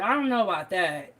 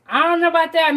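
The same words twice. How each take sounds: First: Said in the usual way. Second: Higher and louder, stretching out know; louder half-joking disbelief; doubtful protest. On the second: Shown as a demonstration. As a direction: push back on the claim with a loud skeptical I don't know.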